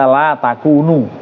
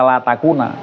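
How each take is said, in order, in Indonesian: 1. Kata terakhir berakhir dengan vokal 'u'. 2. Kata terakhir berakhir dengan vokal 'a'. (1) "dibaca la takunu" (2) "nggak boleh dibaca la takuna"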